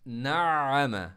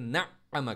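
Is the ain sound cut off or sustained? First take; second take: sustained; cut off. First: The ain sound is stressed and sustained. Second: The ain sound is cut off abruptly. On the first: The speaker calls it right. "आइन को मैं स्ट्रेस भी दे रहा हूँ, जोर भी लगा रहा हूँ, आइन को स्टॉप नहीं कर रहा हूँ" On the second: The speaker calls it wrong. "नअम करते हैं, स्टॉप, बिल्कुल स्टॉप करते हैं आवाज़ को, गलत हो जाएगा।"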